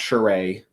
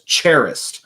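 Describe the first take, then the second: First: The consonants in the name sound soft. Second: The consonants in the name sound hard. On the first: The speaker calls it right. "I believe it's pronounced Charest" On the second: The speaker calls it wrong. "with the hardest consonants on it as possible"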